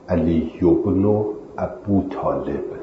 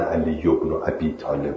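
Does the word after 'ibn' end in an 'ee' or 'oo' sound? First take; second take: oo; ee. First: The word after ibn ends in an oo sound. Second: The word after ibn ends in an ee sound. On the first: The speaker calls it right. "علی ابن ابو طالب درستشه" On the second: The speaker calls it wrong. "نه علی ابن ابی طالب ها"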